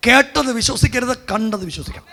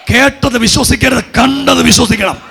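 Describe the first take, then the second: First: Said in the usual way. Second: Raised, emphatic preaching voice; forceful exhortation. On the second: Real, not acted. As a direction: drive the maxim home to the congregation. Repeats the maxim forcefully to congregation.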